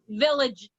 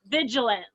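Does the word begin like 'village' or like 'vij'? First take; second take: village; vij. First: The word begins with a 'village' sound. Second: The word begins with a short 'vij' sound. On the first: The speaker calls it wrong. "it really is not village" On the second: The speaker calls it right. "it's vigilant"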